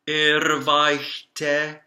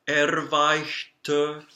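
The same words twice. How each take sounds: First: The final vowel is an open 'eh' sound. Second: The final vowel is a relaxed 'uh' sound. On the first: The speaker calls it wrong. "that's an epsilon sound" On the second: The speaker calls it right. "it's actually a uh sound in German. It's a flat sound"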